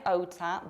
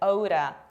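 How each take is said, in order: First: The middle consonant is a crisp, clear T. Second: The middle consonant is a soft flap between D and R. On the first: The speaker calls it wrong. "we pronounce not like Ota" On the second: The speaker calls it right. "but like Oda"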